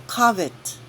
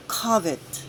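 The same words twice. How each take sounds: First: Covet said KUV-it, stress on the first syllable. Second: Covet repeated as KUV-it, calmly. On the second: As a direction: say Covet as KUV-it again, steady. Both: Shown as a demonstration. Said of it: "please take note of this word".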